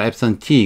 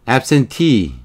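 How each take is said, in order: First: The stress falls on the last syllable. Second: The stress falls on the first syllable. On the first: The speaker calls it right. "absentee 여기 강세가 나오려면 앞에 건 발음이 약 발음이 되는 약 강약 약 강약 강이 되죠. 그러니까 absentee가 맞죠" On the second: The speaker calls it wrong. "아까 발음 틀리게 했네요. abs, absent으로 좀 많이 발음을 했죠"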